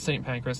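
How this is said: Saint is pronounced the American way. "we would call it Saint Pancras"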